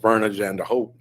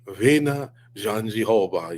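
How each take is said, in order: First: The first name sounds like Verna. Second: The first name sounds like Vina. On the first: This is how others have been saying it. The speaker calls it wrong. "we're calling her" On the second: This is how the fighter says it back home. The speaker calls it right. "I believe she says"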